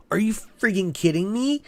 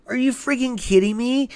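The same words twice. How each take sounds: First: Rising, disbelieving question; incredulous outrage. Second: Much higher, pressed repeat of the question; real angry disbelief. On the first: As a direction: ask it like you can't believe what you just read. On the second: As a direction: say it again, angrier and pitched up. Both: Real, not acted. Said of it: "that pisses me off".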